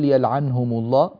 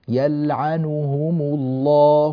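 First: The n carries no vowel at all. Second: The vowel after the n is fully pronounced. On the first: The speaker calls it wrong. "بتسكين النون، هذا غير صحيح" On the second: The speaker calls it right. "هذه 3 ضمات متتالية لابد من أن تأتي بشكل صحيح"

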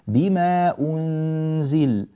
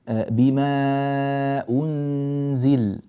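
First: The vowel before the hamza is kept short. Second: The vowel before the hamza is held moderately long. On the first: It follows one option in the reading of Qalun. "القصر في هذه الكلمات كأمثلة يكون هكذا" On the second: It follows another option in the reading of Qalun. "في التوسط إذا كنا نقرأ لقالون"

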